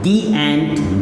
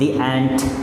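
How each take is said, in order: First: The vowel in 'the' is long and pressed. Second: The vowel in 'the' is short and light. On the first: The speaker calls it wrong. "पूरा दबाव डाल के नहीं ... ऐसे नहीं" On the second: The speaker calls it right. "ऐसे बोलेंगे। इसको थोड़ा सा कम दबाव के साथ"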